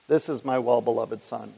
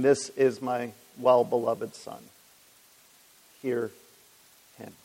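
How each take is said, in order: First: Said in the usual way. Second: Slow, solemn and measured, pausing before hear him; voice from heaven. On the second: Retold or imitated. The Father speaks from heaven at the baptism, slow solemn proclamation. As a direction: intone it gently like a proclamation from above. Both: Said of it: "came the voice saying".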